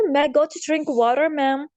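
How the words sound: It is said in an American accent. "America में लोग पढ़ते हैं"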